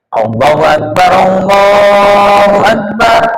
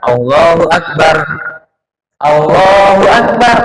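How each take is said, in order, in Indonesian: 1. Kedua frasa diucapkan dalam satu napas. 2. Napas memisahkan kedua frasa. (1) "dalam sekali nafas ngeten iki"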